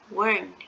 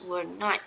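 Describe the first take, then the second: First: It is said as one contracted word. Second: It is said as two full words. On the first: "this one is weren't" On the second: "if it's written were not, so you need to pronounce were not"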